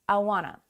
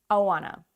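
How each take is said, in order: The two takes are said the same way.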